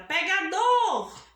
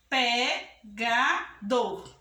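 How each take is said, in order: First: "pegador" called out in one run, long strong final dor; louder calling tone on "pegador", swelling on the last syllable; calling out the word. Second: "pegador" very slow, in three beats: pe, ga, dor; teacher dividing "pegador" syllable by syllable; split into syllables. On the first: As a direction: call "pegador" as if summoning it, stretching dor. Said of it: "como tivesse chamando a palavra". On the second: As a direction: break "pegador" apart with a pause after each syllable. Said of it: "vamos dividir". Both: Shown as a demonstration.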